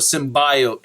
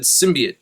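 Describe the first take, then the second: First: The middle part sounds like 'bio' in biology. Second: The middle part does not sound like 'bio'. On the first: "So bio, symbiote" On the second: "they always said symbiote"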